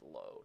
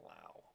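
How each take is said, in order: First: The vowel sounds like the one in 'go'. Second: The vowel sounds like the one in 'cow'. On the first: The speaker calls it right. "It is low" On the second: The speaker calls it wrong. "That's the wrong pronunciation of the exact same spelling of a name"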